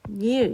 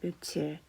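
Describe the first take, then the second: First: The first syllable ends in an 'n' sound. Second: The second syllable begins with a 'ch' sound. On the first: The word is written showing its original parts. "발음이 어떻게 되면 면일 이렇게 발음이 됩니다" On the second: The word is written as it is pronounced. "며칠이라고 발음을 합니다"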